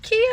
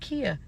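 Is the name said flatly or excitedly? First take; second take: excitedly; flatly. First: The name is said with sudden excitement. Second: The name is said flatly, just answering.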